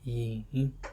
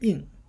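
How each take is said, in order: First: The pitch dips low and then rises. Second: The pitch falls sharply from high to low. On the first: "third would be yin" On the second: "fourth would be in"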